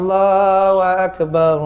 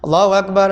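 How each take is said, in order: First: It is said slowly and calmly. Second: It is said fast and hurried.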